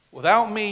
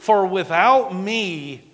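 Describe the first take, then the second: First: Said in the usual way. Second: Slow, loud stress on without; emphatic scripture. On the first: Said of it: "repeated scripture quote". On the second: Real, not acted. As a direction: lean hard on without. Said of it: "emphatic scripture quote".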